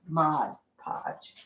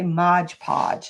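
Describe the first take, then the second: First: The first word ends with a d sound. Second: The first word ends with a j sound. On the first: The speaker calls it right. "but it's not. It's just Mod Podge" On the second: The speaker calls it wrong. "I always want to say Mod Podge, like it's M O D G E P O D G E"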